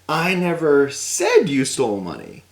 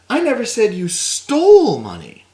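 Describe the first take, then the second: First: The word said carries the stress. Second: The word stole carries the stress. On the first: It was implied rather than said. "But maybe I implied it in a certain way" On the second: The money may have been obtained legitimately. "Maybe you came into it"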